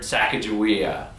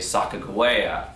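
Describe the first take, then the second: First: The name is said the familiar, commonly heard way. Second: The name is said the more Native American-sounding way. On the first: This is the commonly heard version of the name. "I've always heard Sacagawea" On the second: This is probably how her own people said the name.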